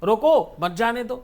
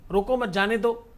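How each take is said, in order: First: Stressed "रोको", break, then "मत जाने दो"; pause after रोको. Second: "रोको मत" run together, then "जाने दो"; group it as "रोको मत", break, "जाने दो"; pause after मत. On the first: Guru showing how one phrase changes meaning, pause after रोको. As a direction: set "रोको" apart, then run "मत जाने दो" together. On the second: Guru showing how one phrase changes meaning, pause after मत. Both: Shown as a demonstration. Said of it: "एक ही शब्द के कई सारे अर्थ".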